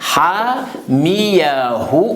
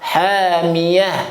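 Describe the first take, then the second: First: The word ends with a long 'hu' sound. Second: The word ends on a bare h with no vowel. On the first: The reciter continues to the next word. "si on continue, il faut prononcer bien" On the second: The reciter stops on this word. "Si on s'arrête"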